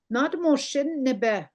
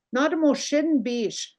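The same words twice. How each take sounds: First: Not moshin nebe said slowly, stress on moshin; slow modelled phrase. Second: Not moshin bish said slowly, stress on moshin; slow modelled phrase. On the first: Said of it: "teacher models the phrase". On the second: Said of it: "You can also say". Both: Shown as a demonstration.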